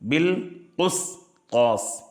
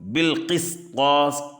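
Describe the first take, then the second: First: The vowel after the q is 'u'. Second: The vowel after the q is 'i'.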